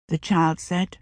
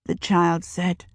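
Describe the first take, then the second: No difference in how they are said.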